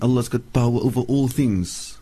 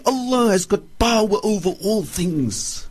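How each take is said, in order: First: It is said in a flat, casual way. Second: It is said with emphatic, heartfelt conviction. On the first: The statement is taken lightly. The speaker calls it wrong. "in the first tone that I've said" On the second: The statement is truly believed and felt. The speaker calls it right. "you must say it in this way and this spirit"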